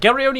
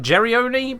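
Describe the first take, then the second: First: The name begins with a hard G sound. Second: The name begins with a soft J sound. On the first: "G like giveaway" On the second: "G like giraffe"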